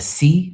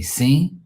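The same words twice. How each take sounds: First: "si" pitched much higher, the other way; "si" set high and loud. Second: "si" said with a short clipped vowel, raised; "si" lifted higher, the local way; Portuguese "si". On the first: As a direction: contrast "si" with the usual form. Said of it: "instead of". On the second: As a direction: show how they say "si". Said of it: "we say". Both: Shown as a demonstration.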